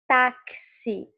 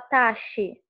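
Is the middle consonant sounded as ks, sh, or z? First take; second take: ks; sh. First: The middle consonant is a ks sound. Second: The middle consonant is a sh sound. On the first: The speaker calls it right. "você fala táxi... tem dois sons" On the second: The speaker calls it wrong. "Ele não tem um som chiado como de xícara. Você não fala taxi"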